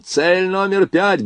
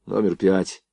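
First: High, drawn-out military order; slow, high-pitched commander's shout; loud command. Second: Said in the usual way. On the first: A narrator's reading. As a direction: call the target out to the crew. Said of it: "громко скомандовал он".

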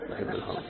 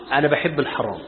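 First: A breathless whispered repeat. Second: Said in the usual way. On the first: Shown as a demonstration. Sheikh whispers it again to the congregation, hushed. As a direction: whisper it like a guilty secret.

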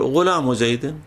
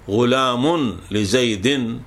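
First: غلام زيد joined as "ghulaamu zaydin"; غلام run into زيد at an easy pace; tanween dropped. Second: Very slow غلام لزيد as "ghulaamun li-zaydin"; غلام لزيد drawn out, each nunated ending voiced; tanween sounded. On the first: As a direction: link غلام to زيد with a short -u, no n. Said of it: "تقول". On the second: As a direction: stretch غلام out to a full -un ending before لزيد. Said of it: "فبدل أن تقول". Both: Shown as a demonstration.

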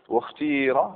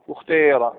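First: واختير with a long clear "ee": ikhtiira; pure kasra. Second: واختير with a blended vowel near "ay": ikhteera; ishmam. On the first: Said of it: "إخلاص الكسر". (واختير بإخلاص الكسر) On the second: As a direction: shade the long vowel of واختير away from pure "ee". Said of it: "الإشمام". (واختير بالإشمام) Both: Shown as a demonstration.

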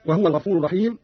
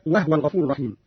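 First: Said in the usual way. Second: وهو as "wahwa", no vowel on the h; silent-vowel ha. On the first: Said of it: "قرأ قالون بإسكان الهاء". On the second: Shown as a demonstration. Teacher shows Qalun's reading, وهو said "wahwa". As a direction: close وهو on the h, "wah-wa". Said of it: "قرأ قالون بإسكان الهاء هكذا".

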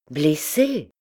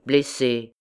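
First: Upset, questioning echo of the word; distressed question. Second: Said in the usual way. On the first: A narrator's reading. Young woman hears her cousin was wounded, upset question. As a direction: ask it back, shaken. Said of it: "La pauvre enfant était toute bouleversée".

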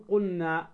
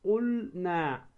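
First: قلنا with the L merged into a doubled N; lam dropped. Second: قلنا very slowly, L held before the N; drawn-out, distinct L in قلنا; clear lam. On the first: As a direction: say قلنا as qunna. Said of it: "ما تقل". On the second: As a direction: say قلنا as qulll-naa. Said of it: "أن تظهر اللام". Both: Shown as a demonstration.

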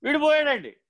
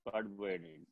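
First: High, insistent mock lament; acted mourner's wail. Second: Very soft, low mock lament; acted mourner's murmur. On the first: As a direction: play the weeper protesting on a high pitch. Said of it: "ఎందుకు ఏడుస్తున్నావురా నువ్వు". (ఏడుస్తున్నట్టు నటిస్తూ హెచ్చు స్వరంలో) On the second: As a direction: play the weeper answering low and faint. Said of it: "నువ్వు ఏడవడం ఎందుకురా". (ఏడ్చేవాడిలా నటిస్తూ తగ్గు స్వరంలో, మెల్లగా)

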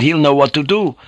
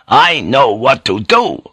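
First: Said in the usual way. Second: Louder, slower, hitting each word; emphatic outburst. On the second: Acted. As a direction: cut him off with certainty. Priest contradicted, fist smashes gunwale.

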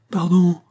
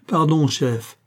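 First: Higher, louder panicked plea; a terrified man begging on his knees; panicked plea for mercy; stammering, panicked. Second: Panicked stammer. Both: A narrator's reading. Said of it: "balbutia-t-il, affolé".

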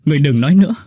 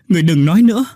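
First: Higher, louder desperate cry; loud shout. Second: Even higher, full-force scream; louder desperate shout. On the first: Oanh shouting at the dying Hau to stop. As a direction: shout to make her stop talking. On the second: Oanh screaming the plea again, louder. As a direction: cry it out at full strength, breaking. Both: A narrator's reading. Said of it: "Oanh hét lớn".

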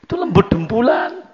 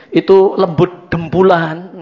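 First: "lembut" pitched high with a rising tune; higher repeat stressing "lembut"; raised emphasis. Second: Said in the usual way. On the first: Shown as a demonstration. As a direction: lift the whole phrase up on "lembut".

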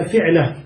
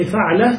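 First: I-vowel on the first syllable of fi'la; fi'la, kasra under the fa. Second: A-vowel on the first syllable of fa'la; fa'la, the fa opened; fa'la with fatha. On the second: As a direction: say fa'la with an open a on the fa. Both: Shown as a demonstration. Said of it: "ولكنه بكسر الفاء".

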